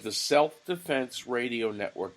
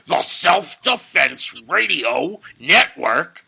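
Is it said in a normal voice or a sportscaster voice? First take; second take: normal voice; sportscaster voice. First: It is said in his normal speaking voice. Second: It is said in a put-on sportscaster voice.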